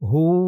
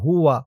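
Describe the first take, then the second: First: The word ends in a long u sound. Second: The word ends with a wa sound. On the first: The reciter stops at this point. "উচ্চারণ হয়েছে হু" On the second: The reciter continues into the next word. "যদি আপনি এই জিম চিহ্নতে অক্ফ না করেন তাহলে উচ্চারণ করবেন হুয়া"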